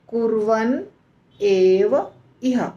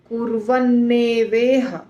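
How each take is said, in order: First: Three words are said apart as separate units. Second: The three words are run together as one word. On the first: The speaker calls it wrong. "तीन शब्द है" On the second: The speaker calls it right. "तीनों को जब जोड़ा जाता है"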